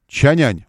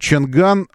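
First: The second syllable starts with a 'y' sound. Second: The second syllable starts with a 'g' sound.

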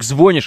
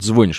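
First: The word is said in a threatening way. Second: The word is said in a plain, neutral way. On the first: "это намного более угрожающе звучит" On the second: "он должен, естественно, говорить... звонишь именно"

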